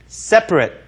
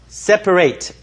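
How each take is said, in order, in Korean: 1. 마지막 음절은 'rit'처럼 들립니다. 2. 마지막 음절은 'eight'처럼 들립니다. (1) "형용사로 쓸 때는 separate, separate 이렇게 해서 rit 이렇게 발음하셔야 되죠" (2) "동사는 다시 한번 말씀드리지만 separate, separate, eight 이렇게 발음하셔야 되고"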